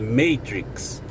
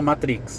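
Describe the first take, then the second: First: The word has an English pronunciation. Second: The word has a Brazilian Portuguese pronunciation. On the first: "Em inglês, né, a pronúncia é diferente, é, é Matrix" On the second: "o nosso porto inglês fala Matrix"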